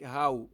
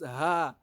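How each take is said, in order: First: It ends in an 'ow' glide. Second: It ends in a plain open vowel. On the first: The speaker calls it wrong. "it is not correct" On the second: The speaker calls it right. "You don't pronounce ha like how"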